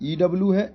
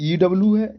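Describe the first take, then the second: No difference in how they are said.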